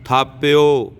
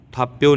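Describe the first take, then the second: First: ਥਾਪਿਓ with an aspirated th and a falling close; correct pronunciation. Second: ਥਾਪਿਓ with an unaspirated t; wrong pronunciation. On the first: Teacher modelling the right reading for students, aspirated ਥਾਪਿਓ. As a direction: push a breath after the t of ਥਾਪਿਓ. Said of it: "ਥਾਪਿਓ ਬੋਲਣਾ ਇਹਨੂੰ". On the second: Teacher showing students the wrong reading, ਥਾਪਿਓ without aspiration. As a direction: say ਥਾਪਿਓ flat, with no breath after the t. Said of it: "ਥਾਪਿਓ ਨਹੀਂ ਕਹਿਣਾ". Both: Shown as a demonstration.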